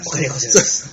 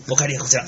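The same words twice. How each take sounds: First: A touch of the comic butler; polite butler line, lightly imitated; Norihei impression. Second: Lightly voiced butler, polite; mild imitation of Norihei's butler; Norihei impression. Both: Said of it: "似てますよね". (三木のり平の物真似)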